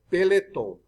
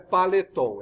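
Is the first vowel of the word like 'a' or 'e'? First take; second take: e; a. First: The first vowel sounds like an 'e'. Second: The first vowel sounds like an 'a'. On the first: The speaker calls it right. "é Peloton" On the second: The speaker calls it wrong. "não é Paleton"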